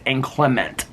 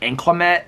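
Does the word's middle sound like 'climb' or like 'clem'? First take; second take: clem; climb. First: The middle syllable sounds like 'clem'. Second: The middle syllable sounds like 'climb'. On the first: The speaker calls it right. "it's inclement, it's E N T" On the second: The speaker calls it wrong. "it's not inclement, not like climate"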